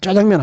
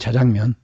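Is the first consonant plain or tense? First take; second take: tense; plain. First: The first consonant is tensed and hard. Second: The first consonant is plain, not tensed. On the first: "짜장면이라는 그 용어가 그 된소리라고" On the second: "원래 국어식 발음은 자장면이거든요"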